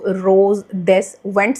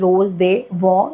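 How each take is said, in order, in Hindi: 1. अंतिम s और ts ध्वनियाँ उच्चारित होती हैं। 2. अंतिम s और ts ध्वनियाँ मौन रहती हैं। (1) "लिखा हुआ है इस पे" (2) "जिसकी प्रोनाउंसिएशन है"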